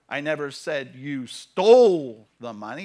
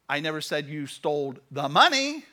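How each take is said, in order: First: The word "stole" carries the main stress. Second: The word "money" carries the main stress. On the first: It was borrowed, not stolen. "You borrowed it" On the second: Other things were stolen instead. "You stole everything else"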